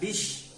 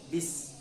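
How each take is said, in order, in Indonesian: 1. Kata ini berakhir dengan bunyi sh. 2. Kata ini berakhir dengan bunyi s biasa. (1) "tidak bish" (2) "ini bukan sya, ya, tapi ini sin"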